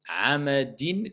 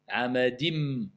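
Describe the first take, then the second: First: The final nasal is a plain n sound. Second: The final nasal is assimilated into an m sound.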